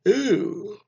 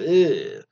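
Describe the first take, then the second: First: It is said through a yawn. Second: It is said clearly, without a yawn.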